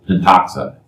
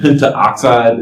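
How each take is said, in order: First: No vowel is said between 'pent' and 'oxide'. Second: An extra 'a' vowel is said before 'oxide'. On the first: The speaker calls it right. "we generally drop the first vowel" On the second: The speaker calls it wrong. "Instead of saying pentaoxide"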